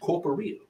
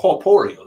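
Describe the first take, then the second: First: The word is pronounced the ordinary English way. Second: The word is pronounced with a French accent.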